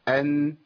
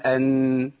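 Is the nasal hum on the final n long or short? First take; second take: short; long. First: The nasal hum on the n is brief. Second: The nasal hum on the n is drawn out. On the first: The speaker calls it right. "التوسط زمن جريان الصوت فتره بسيطه قوي، ما تزودش عن كده. يبقى ايه؟" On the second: The speaker calls it wrong. "ده احنا يا شيخ بنزودها شويه، بنقول ان، لا لو زودت شويه يبقى انت عملت غنه مبالغ فيها"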